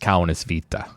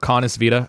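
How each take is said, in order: First: The name is said with a Finnish pronunciation. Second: The name is said with an English-style pronunciation.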